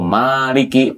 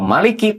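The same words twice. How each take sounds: First: The first vowel is held long. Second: The first vowel is kept short. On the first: It means owner or ruler. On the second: It means king.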